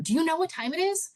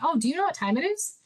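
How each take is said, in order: First: It sounds accusing and putting the listener down. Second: It sounds like a casual, friendly question.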